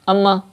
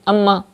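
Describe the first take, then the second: First: The nasal m sound is cut short. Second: The same.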